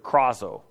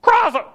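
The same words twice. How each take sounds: First: Said in the usual way. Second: Very high, loud squawked KRAZO; piercing onomatopoeic cry on KRAZO; bird-like squawk. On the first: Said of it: "the Greek word krazo". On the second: Shown as a demonstration. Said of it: "it means to squawk like a bird".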